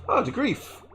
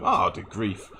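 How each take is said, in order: First: Squeaky, much higher jokey voice; silly high voice. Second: Said in the usual way. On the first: Pretend. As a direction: pitch it way up as a playful gag. Reading a chat name in a funny voice.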